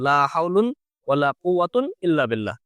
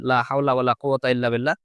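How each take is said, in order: First: Both nouns end in un. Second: Both nouns end in a short a. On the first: "দুটো আমল মুলগাহিন ধরে" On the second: "সরাসরি জবর দিয়ে দিই"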